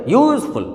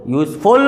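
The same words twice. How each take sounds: First: useful with YOOZ high and long, FUL falling; stress on first syllable. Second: useful with a long, heavy FUL; stress on second syllable. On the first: Teacher giving the correct way, first syllable stressed. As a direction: push up on YOOZ, drop FUL. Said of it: "क्या बोलते?". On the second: Teacher showing the wrong way, second syllable stressed. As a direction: hold back YOOZ, push FUL. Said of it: "नहीं बोलते ना". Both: Shown as a demonstration.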